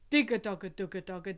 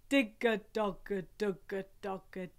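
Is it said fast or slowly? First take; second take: fast; slowly. First: It is said fast. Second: It is said slowly.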